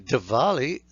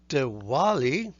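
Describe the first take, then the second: First: The middle sound is a consonant v. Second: The middle sound is a vowel-like w. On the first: "then it's more like a consonant" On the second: "we're using a sound that comes close to the U"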